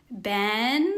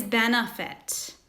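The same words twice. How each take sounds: First: "Ben-a-fit" split into beats, the middle a weak "uh"; syllable demo. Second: Said in the usual way. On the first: Shown as a demonstration. Teacher sounding out "Ben-a-fit" for pupils. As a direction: break "Ben-a-fit" apart to show the schwa. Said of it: "I hear it in the second E". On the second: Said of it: "Say benefit".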